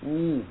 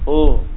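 First: The lips push forward too far on the vowel. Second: The lips push forward too little, sounding like o. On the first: "Atau terlalu maju" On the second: "O, kurang"

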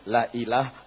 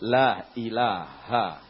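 First: The final vowel is cut off. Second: The final vowel is fully pronounced. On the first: The speaker calls it wrong. "jangan la ilah" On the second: The speaker calls it right. "tapi la ilaha"

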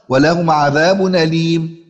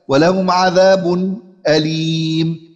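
First: The glottal stop is dropped and its vowel joins 'adhab'. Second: A brief silent break comes before the glottal stop. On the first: "الوجه الأول وهو النقل" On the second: "والوجه الثالث وهو السكت"

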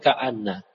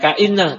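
First: The vowel after the glottal stop is a. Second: The vowel after the glottal stop is i. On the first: The speaker calls it right. "tapi ka'anna" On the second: The speaker calls it wrong. "Jangan ka'inna"

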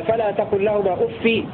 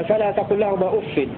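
No difference in how they are said.

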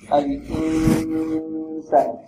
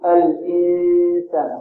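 First: The n sound is only lightly nasal. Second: The n sound comes heavily through the nose. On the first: The speaker calls it right. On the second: The speaker calls it wrong.

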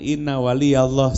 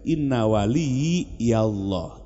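First: Wali runs straight into Allah with no linking syllable. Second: Wali links to Allah through an added yi syllable. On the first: A saint is Allah's. The speaker calls it wrong. "Jangan inna wali Allah. Salah itu" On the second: My guardian is Allah. The speaker calls it right. "supaya benar bacanya"

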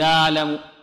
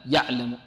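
First: The ain is loose and drawn out long. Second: The ain is cut off tightly and abruptly. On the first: "بعض القراء أو بعض القارئي القرآن يأتي بها رخوة" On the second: "لعل بعض الطلاب يعطيها شدة"

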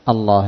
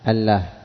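First: The L is said thick and heavy. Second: The L is said thin and light. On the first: The speaker calls it right. "وفتح وغلظت اللام تفخيما" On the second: The speaker calls it wrong. "لو لم تغلظ"

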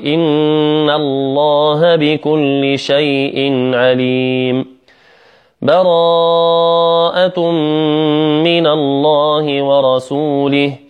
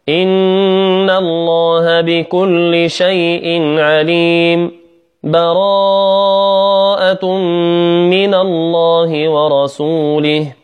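First: A full stop with a breath after the first phrase. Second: A brief pause without a breath after the first phrase. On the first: "هنا وقف عليم وقف" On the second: "هذا الوجه الثاني السكت"

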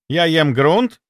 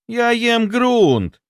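First: It sounds like a question. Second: It sounds like a complaint. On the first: Something is being asked. "Это вопрос" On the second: Something is being complained about. "Это жалоба"

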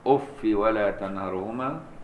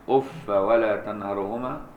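First: The word ends in -i without nunation. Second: The word ends in -a without nunation. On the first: "بالكسر دون تنوين" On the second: "بالفتح بغير تنوين"

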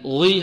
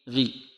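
First: The gh sound is heavy and strongly emphasized. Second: The gh sound is light with a thin vowel. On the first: The speaker calls it wrong. "لكن غي هذا خطأ" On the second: The speaker calls it right. "نقول فالمغيرات، غي غي غي غي"

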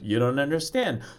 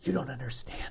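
First: It is said in a full voice. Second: It is said in a whisper.

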